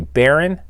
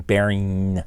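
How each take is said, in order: First: "Baron" said with the g dropped; dropped final g. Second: "Baring" with a drawn-out ng ending; full -ing ending. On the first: Admitting his own habit to a critic, dropped final g on "Baron". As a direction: end "Baron" on a plain n, not ng. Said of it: "I sometimes say Baron instead of saying". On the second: Showing a critic the proper form, full -ing on "Baring". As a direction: sound out the whole -ing in "Baring". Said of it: "instead of saying Baring". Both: Shown as a demonstration.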